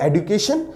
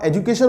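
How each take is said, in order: First: Education with a d sound, no j; newer pronunciation. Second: एजुकेशन with a j sound; old-style "ej-u-kay-shun" for एजुकेशन; older pronunciation. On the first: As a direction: say education as "ed-yu-KAY-shun". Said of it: "now it is called education". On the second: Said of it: "आप एजुकेशन बोलते थे". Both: Shown as a demonstration.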